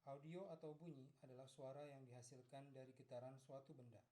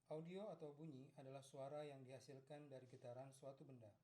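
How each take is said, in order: The two takes are said the same way.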